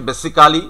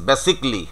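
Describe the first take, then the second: First: "basically" as besi-KAA-li; every written syllable of "basically" sounded; local "basically". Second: "basically" in three syllables, BASIC-lee; "basically" as basik-li, falling; correct "basically". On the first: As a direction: say "basically" with a full "kaa" before "li". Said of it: "আমরা যেটা উচ্চারণ করছি". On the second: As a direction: say "basically" with the "ca" dropped. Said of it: "it is basically". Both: Shown as a demonstration.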